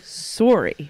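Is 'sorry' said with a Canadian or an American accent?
Canadian. It is said with a Canadian accent.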